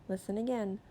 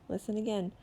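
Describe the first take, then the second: Both takes have the same delivery.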